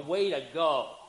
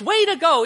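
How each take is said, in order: First: It sounds mocking and sarcastic. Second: It sounds warm and sincerely approving. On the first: The listener failed badly. "They blew it. You go, way to go" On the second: The listener did a good job. "You say to your kids, way to go. Yeah, you did a good job"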